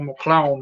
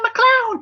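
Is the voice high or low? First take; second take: low; high. First: It is said in a very low voice. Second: It is said in a higher put-on voice.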